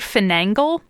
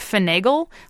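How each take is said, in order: First: An extra n sound comes before the g. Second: No n sound comes before the g. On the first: The speaker calls it wrong. "she would always say finagle" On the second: The speaker calls it right. "Instead of finagle"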